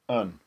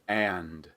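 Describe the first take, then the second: First: It is reduced to a short weak un. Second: It has a full vowel and a final d. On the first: "something more like un" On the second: "a strong form of and"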